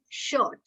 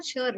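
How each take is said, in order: First: "shirt" as SHUHT, slowly; silent R. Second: "shirt" as SHUR-it, R spoken; R sounded. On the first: Teacher gives the correct form, slow, R silent. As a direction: draw out "shirt" with no R. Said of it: "it is shirt". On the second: Teacher shows the rejected form, R sounded. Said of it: "But it is not shirt". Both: Shown as a demonstration.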